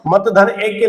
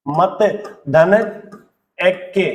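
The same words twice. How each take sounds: First: Said in the usual way. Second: मत, धन, एक के separated by clear pauses; word-by-word breakdown. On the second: Shown as a demonstration. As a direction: say मत, then pause, धन, then pause, एक के. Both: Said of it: "मैं फिर से ले रहा हूं".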